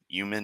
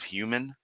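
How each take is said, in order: First: The word starts with a Y-like sound, no H. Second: The word starts with a clear H sound.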